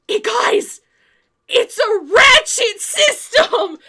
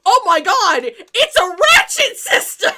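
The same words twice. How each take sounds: First: Slow, much louder and higher shout, laughing; excited discovery. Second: Much louder, higher, laughing exclamation; mock amazement. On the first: Retold or imitated. Dave announcing to the guys he figured it out, excited shout. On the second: The guys reacting to Dave's discovery, mock amazement. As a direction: marvel at it with mock awe.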